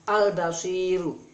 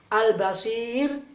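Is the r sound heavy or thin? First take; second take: heavy; thin. First: The r is pronounced heavy and thick. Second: The r is pronounced thin and light. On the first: The speaker calls it wrong. "jadi tebal" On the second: The speaker calls it right. "dibaca tipis seharusnya"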